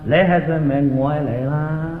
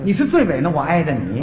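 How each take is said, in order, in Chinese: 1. 这是带广东口音的普通话。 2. 这是标准普通话的发音。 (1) "广东人这句话讲讲" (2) "这字儿叫你是不是最尾？"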